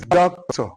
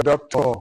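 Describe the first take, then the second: First: DOCTOR stressed on DOC, as DOC-tor; "doctor" with strong DOC, light TOR; first-syllable stress. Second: DOCTOR stressed on TOR, as doc-TOR; misstressed "doctor", weight on the last syllable; wrong second-syllable stress. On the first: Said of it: "the first syllable receives stress". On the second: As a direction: push the stress onto the end of "doctor". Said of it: "It's not the doctor, no way". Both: Shown as a demonstration.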